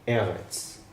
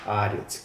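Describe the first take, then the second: First: The word begins with an 'e' vowel sound. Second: The word begins with an 'a' vowel sound. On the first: The word stands alone. "cuando se encuentra solo así es eretz" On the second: The word is combined with another word. "Cuando se combina con otra palabra es aretz"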